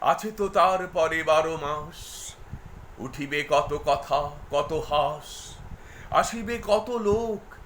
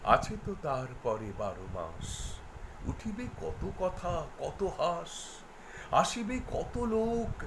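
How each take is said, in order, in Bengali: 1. অনুভূতি বদলে আরও জোরে আবৃত্তি করা হচ্ছে। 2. নরমভাবে, সুর ধীরে ধীরে ওপরে উঠিয়ে আবৃত্তি করা হচ্ছে। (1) "এই ভলিউম বৃদ্ধি এবং এই যে অনুভবের তার পরিবর্তন" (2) "স্কেলটা অনেকটাই উঠছে কিন্তু ওই ভঙ্গির মধ্য দিয়ে উঠছে"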